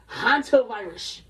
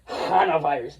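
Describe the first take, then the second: First: Hantavirus said slowly and carefully, HAN-ta-virus; correct name. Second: Hana virus, dropping the t, said through a laugh; mocking mispronunciation. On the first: Shown as a demonstration. Correcting himself to the proper Hantavirus. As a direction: Hantavirus with the full t sound. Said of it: "That joint is called Ana-, Hanta". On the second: Mocking the clip's botched Hana virus with a laugh. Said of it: "That shit said Hana virus".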